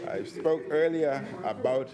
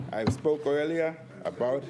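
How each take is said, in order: Both takes have the same delivery.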